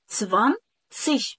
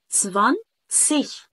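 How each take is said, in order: The two takes are said the same way.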